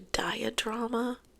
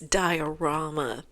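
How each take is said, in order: First: It has an extra d sound before the r. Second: It has no d sound before the r. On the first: The speaker calls it wrong. "I knew that didn't sound right" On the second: The speaker calls it right. "It's diorama. D I O R A M A"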